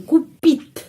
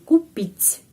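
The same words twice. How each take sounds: First: The final t is hard, not softened. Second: The final t is soft, palatalized. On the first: The speaker calls it wrong. "Kalau tidak ada tanda pelemah, jadi kupit ... T keras" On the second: The speaker calls it right. "T menjadi lemas ... Jadi pengucapannya kupit, begini"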